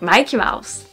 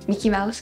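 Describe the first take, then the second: First: The first vowel is long, as in 'Mike'. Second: The first vowel is short, as in 'Mick'. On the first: "So I say Mikey because Mike" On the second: "I do not like to say Mickey"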